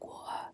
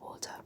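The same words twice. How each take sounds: First: The T is soft and relaxed. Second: The T is crisp and clearly pronounced. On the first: The speaker is tired and putting in little effort. "when I'm tired, I'll be like water" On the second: The speaker is putting effort into speaking carefully. "instead of water"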